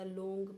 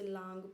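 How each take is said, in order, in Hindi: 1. स्वर एक बंद 'oh' ध्वनि है। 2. स्वर एक लंबी खुली 'aa' ध्वनि है। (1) "बहुत सारे लोग जैसे लांग पढ़ेंगे या लोंग पढ़ेंगे, दैट इज़ रॉन्ग" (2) "बहुत सारे लोग जैसे लांग पढ़ेंगे या लोंग पढ़ेंगे, दैट इज़ रॉन्ग"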